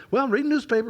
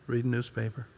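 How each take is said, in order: First: "Well, I'm reading newspaper," lifted high and eager; chatting eagerly with a church member; lively reply. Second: "Reading newspaper." mumbled flat, lifeless and much softer; bored husband answering his wife flatly; dead reply. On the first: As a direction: make "reading newspaper" sound exciting. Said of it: "if that had been an average couple person from church". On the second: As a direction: drop the energy out of "Reading newspaper.". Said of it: "the deadness in mine". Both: Retold or imitated.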